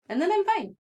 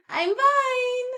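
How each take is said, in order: First: Said in the usual way. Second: I'm fine squeaked much higher, laughing; high laughing insistence on fine; mock-cheery I'm fine. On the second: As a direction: chirp fine as a laughing fake reassurance. Joke about sobbing then being fine.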